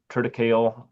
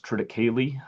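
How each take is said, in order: First: Triticale cut to three syllables, ending like kale; variant pronunciation. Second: Triticale said in four syllables, ending kay-lee; shown pronunciation. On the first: Presenter shows how some people say it, triticale pronounced trit-i-KALE. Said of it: "some people call it". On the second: Presenter teaches farmers the crop's name, triticale pronounced trit-i-KAY-lee. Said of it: "it is pronounced triticale". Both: Shown as a demonstration.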